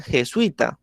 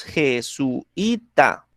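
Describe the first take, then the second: First: "jesuita" run together as je-SUI-ta, u gliding into i; teacher showing the other way to say "jesuita", as three syllables; diphthong pronunciation. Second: "jesuita" said slowly as je-su-i-ta, u and i kept apart; teacher slowly splitting "jesuita" into four syllables; split syllables. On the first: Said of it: "lo pronuncian de una manera diferente". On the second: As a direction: spell out "jesuita" in four syllables, pausing between u and i. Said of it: "la pronunciamos nosotros". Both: Shown as a demonstration.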